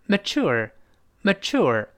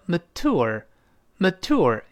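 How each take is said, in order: First: The middle consonant is a ch sound. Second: The middle consonant is a plain t sound. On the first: "更多的美国人呢把这个t 翻成ch" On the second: "这个字母t 翻成t 叫mature"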